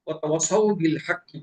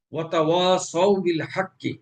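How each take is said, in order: First: ওয়াতাওয়াসাউ said fast, alif cut short; wrong short alif. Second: Slow ওয়াতাওয়াসাউ with the alif held long; correct long alif. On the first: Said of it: "মাদ না করে". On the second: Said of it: "ওয়াওয়ের উপরে আলিফ মাদ আছে". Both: Shown as a demonstration.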